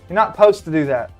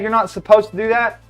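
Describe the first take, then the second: First: The word supposed is clipped to posed. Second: The word supposed is said in full.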